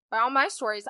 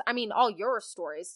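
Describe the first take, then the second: First: "my" hit louder; stress on my. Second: "your" leaned on as the correction; stress on your. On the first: Host quoting herself before a correction, stress on "my". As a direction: lean hard on the word "my". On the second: Host crediting the listeners, stress on "your". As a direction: put the weight on the word "your". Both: Real, not acted. Corrects whose stories they are.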